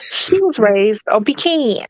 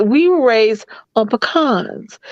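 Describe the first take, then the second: First: "pecans" as PEE-cans; drawn-out PEE-CANS for "pecans"; northern pronunciation. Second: "pecans" as puh-KAHNZ; southern puh-KAHNZ for "pecans"; southern pronunciation. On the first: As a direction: say "pecans" slowly, like pee plus tin cans. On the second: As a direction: say "pecans" with a short first syllable, then KAHNZ. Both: Shown as a demonstration. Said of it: "It is pecan to us".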